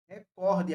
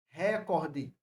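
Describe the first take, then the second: First: The stress falls on the second syllable. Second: The stress falls on the first syllable. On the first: The speaker calls it right. "a palavra é paroxítona e não proparoxítona" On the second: The speaker calls it wrong. "Não existe essa palavra recorde"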